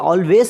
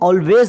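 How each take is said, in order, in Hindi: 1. अंतिम व्यंजन s ध्वनि है। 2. अंतिम व्यंजन z ध्वनि है। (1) "ನಾವು ಇದಕ್ಕೆ ಆಲ್ವೇಸ್ ಅಂತ ಹೇಳ್ತೀವಿ ತುಂಬ ಜನ" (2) "ಕರೆಕ್ಟ್ ಪ್ರೊನೌನ್ಸಿಯೇಷನ್ ... ಝ ಶಬ್ದ ಬಳಸ್ಬೇಕು"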